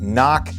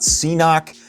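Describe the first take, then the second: First: It is said as 'knock'. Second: It is said as 'see-knock'. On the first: "It is not Knock" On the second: "It is not C-Knock"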